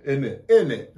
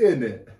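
First: Clipped British "In it."; mock British "In it."; British accent. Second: Louder British "In it."; mock British "In it."; British accent. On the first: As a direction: say "In it." like a Londoner. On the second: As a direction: punch "In it." like a Londoner. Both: Shown as a demonstration. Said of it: "They say in it".

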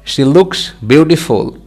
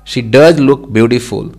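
First: Said in the usual way. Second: "does" given extra weight; stress on "does". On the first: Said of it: "Normal sentence". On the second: Shown as a demonstration. Teacher shows learners the emphatic sentence, stressing "does". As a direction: punch the word "does" for emphasis.

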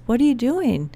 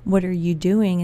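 First: Higher, lively retold question from dad; excited question. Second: Disapproving question. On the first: Dad cheering on a new idea, excited. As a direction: imitate a thrilled dad asking. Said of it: "Like, this is exciting". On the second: Retold or imitated. Imagined critic questioning her, disapproving. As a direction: question it as if it isn't allowed. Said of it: "You can't do that".

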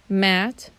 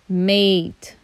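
First: "Mat" with a short flat a; short a demo. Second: "mate" with a long ay sound; long a demo. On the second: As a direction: glide "mate" into may-t. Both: Shown as a demonstration. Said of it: "Can you hear the difference".

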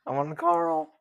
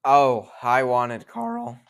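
First: Much higher, cracking voice on Karl; squeaky puberty crack, hammed up. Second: Cracking voice mid-word. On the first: Shown as a demonstration. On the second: Real, not acted. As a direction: voice breaks on Karl. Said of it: "sorry for the voice crack".

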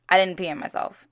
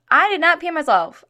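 First: Said in the usual way. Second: "not" hit higher and louder, insisting; stress on not. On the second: Retold or imitated. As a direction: lean hard on "not" in a raised voice. Repeated denial, insisting.

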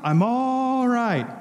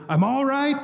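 First: "I'm all right" stretched very slow and high, in a put-on voice; a slow, high, reassuring cry of "I'm all right"; drawn-out mock cry. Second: Imitating a much higher off-camera yelp of "I'm all right"; a retold mock yell of "I'm all right", pitched high; mock scream. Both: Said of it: "he screams off the camera".

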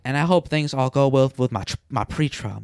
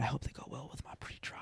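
First: Said in the usual way. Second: Hushed, quick whisper; mock secretive whisper. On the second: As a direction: lean in and whisper it. Coworker repeating line, whispered.

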